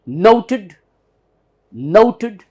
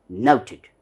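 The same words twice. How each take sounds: First: NOTED as loud, high NOH-tud; American "noted" with a strong first syllable; American pronunciation. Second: NOTED as slow NOW-tid, with "ow"; British "noted": nouted, unemphatic; British pronunciation. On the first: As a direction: punch a round "oh" in "noted", weak "ud" ending. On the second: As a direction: say "noted" with an "ow" vowel and a "tid" ending. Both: Shown as a demonstration. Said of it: "That's the difference".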